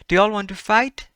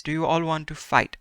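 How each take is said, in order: First: Loud, high challenge; rowdy dare, loud and high; shouted question. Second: Said in the usual way. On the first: Shown as a demonstration. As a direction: call it out like picking a fight.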